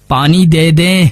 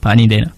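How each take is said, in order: First: پانی دے دیں said fully, each word finished; clearly sounded پانی دے دیں to the last syllable; every word complete. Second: پانی دینا with دینا cut off midway; rushed پانی دینا, last word swallowed; swallowed word ending. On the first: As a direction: give دے دیں its full length. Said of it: "یہ اب جیسے میں بول رہا ہوں". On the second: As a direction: let دینا die away half-said. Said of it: "وہ بات دینا بیچ میں ہی ختم ہو گیا". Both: Shown as a demonstration.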